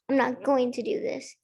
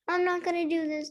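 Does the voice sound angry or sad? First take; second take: angry; sad. First: It is said in an angry voice. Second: It is said in a sad voice.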